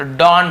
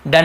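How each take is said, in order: First: "डॉन" with an open aw vowel; teacher sounding aw in "डॉन"; right pronunciation. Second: "डन" with a short uh vowel; teacher giving "डन" as what not to say; wrong pronunciation. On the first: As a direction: model "डॉन" with a rounded aw. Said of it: "पढ़ रहे हैं". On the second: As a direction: show the mistaken uh in "डन". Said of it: "इसे डन नहीं पढ़ रहे". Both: Shown as a demonstration.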